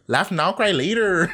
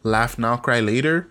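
First: It is said in a Chicano chola accent. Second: It is said in the speaker's plain voice.

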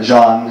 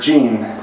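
First: The name is said the French way, like Parmesan. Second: The name is said the English way, like denim. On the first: "as in Parmesan" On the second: "as in denim"

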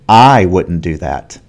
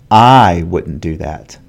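The two takes are said the same way.

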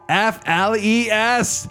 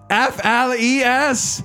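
First: It is said with more intensity. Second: It is said with the most intensity.

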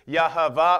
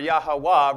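First: The middle consonant is a V sound. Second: The middle consonant is a W sound. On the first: "depending on how you pronounce the V or the W" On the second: "depending on how you pronounce the V or the W"

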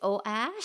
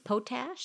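First: The P and T sounds are dropped. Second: Every sound, P and T included, is pronounced.

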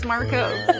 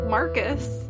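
First: The second syllable sounds like 'cos'. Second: The second syllable sounds like 'cus'. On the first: The speaker calls it right. "and it's Marcos" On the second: The speaker calls it wrong. "I pronounced Marcos Matsunaga's name Marcus the whole last episode"

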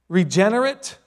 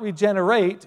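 First: The final syllable is weak and reduced. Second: The final syllable is full, like 'ate'. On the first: It describes something newly born or renewed. The speaker calls it right. "It's actually the adjective form of it" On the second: It names the action of making something new. The speaker calls it wrong. "not regenerate"

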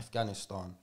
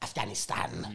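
First: The name is said in a native-style way. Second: The name is said in an anglicized way. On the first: This is how it is properly said. The speaker calls it right. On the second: This is how the news says it. The speaker calls it wrong.

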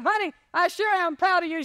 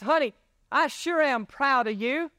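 First: It is said much louder. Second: It is said at normal loudness.

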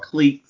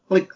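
First: The word is said the English way. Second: The word is not said the English way.

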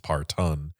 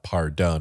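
First: It has a standard accent, with a T sound. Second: It has a Southern accent, with a D sound.

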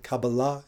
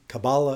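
First: The word is said with an Israeli pronunciation. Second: The word is said with an Anglo-American pronunciation. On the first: This is the traditional way of saying it. "the Israeli or, you know, more traditional pronunciation" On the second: This is the English-speaking way of saying it. "sort of Anglo-American pronunciation"

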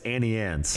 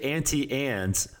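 First: The t is dropped in the first word. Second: The t is clearly pronounced in the first word. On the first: The speaker calls it right. "it's like Texas. It's a freeway. It's flat" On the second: The speaker calls it wrong. "Stop enunciating every single vowel of that word"

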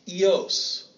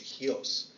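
First: The word begins directly with a vowel. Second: The word begins with an h sound.

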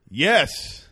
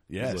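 First: The word is said louder and stronger. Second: The word is said at normal volume.

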